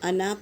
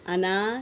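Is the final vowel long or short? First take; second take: short; long. First: The final vowel is short. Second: The final vowel is long. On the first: The speaker calls it right. "अलिफ कहीं पढ़ा नहीं जाएगा। अना पढ़ेंगे" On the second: The speaker calls it wrong. "अना नहीं"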